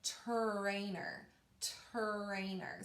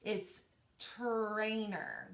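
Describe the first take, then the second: First: "Trainer" said softly with a clean t-r start; modelled pronunciation. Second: "trainer" said slowly with a clean tr onset; clear tr sound. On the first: Teacher modelling the word for pupils to copy, softly. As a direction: model "trainer" gently with a true tr. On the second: Teacher correcting the ch sound to pupils, slow and clear. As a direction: say "trainer" with a true t-r, not ch, drawn out slowly. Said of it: "but it's not the C H". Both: Shown as a demonstration.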